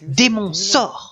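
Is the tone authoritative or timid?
authoritative. It is said in a firm, commanding tone.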